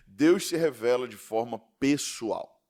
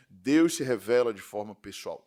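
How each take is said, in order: First: "Deus se revela de forma pessoal" said slowly, leaning on "Deus"; slow emphatic statement. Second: "Deus se revela de forma pessoal" repeated lower, stressing "Deus"; lower repeated emphasis. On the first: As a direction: lay it down slowly, stressing "Deus". (ênfase lenta em "Deus") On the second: (repetição mais grave com ênfase em "Deus") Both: Shown as a demonstration.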